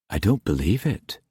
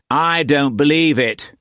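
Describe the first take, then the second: First: Stunned disbelief. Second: High, scoffing disbelief. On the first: Masterson watching T Sen being scourged, stunned disbelief. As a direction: barely voice it, in shock. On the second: Roach rejecting the translated edict, scoffing. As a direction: dismiss it with a raised, incredulous voice. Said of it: "Roach scoffed". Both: A narrator's reading.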